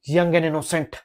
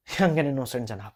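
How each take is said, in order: First: Said in the usual way. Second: Put-on slow, sneering young and innocent; sarcastic repeat. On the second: Lawyer mocks the defendant's label to the judge, slow and sneering. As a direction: drag young and innocent out with scorn.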